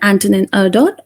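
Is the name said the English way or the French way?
English. The name is said with English pronunciation. "since you're uh, English speaker ... you can use either of the pronunciation"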